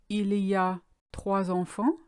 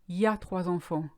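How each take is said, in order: First: The phrase begins with the full il y a. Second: The il is dropped, leaving only y a. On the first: "if you want to say" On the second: "you would say"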